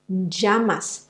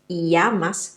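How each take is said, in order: First: The double L sounds like a soft j. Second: The double L sounds like a y glide. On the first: "it sounds more like a soft j" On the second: "in some countries it sounds more like an E"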